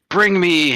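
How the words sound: It is said in an imitated, put-on voice.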